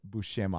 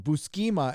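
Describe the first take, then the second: First: The middle consonant is an sh sound. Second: The middle consonant is a plain s sound. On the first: This is the proper way of saying it. The speaker calls it right. "It's Bush Buscema, I think" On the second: This is the childhood way of saying it. The speaker calls it wrong. "is what I called him when I was a kid"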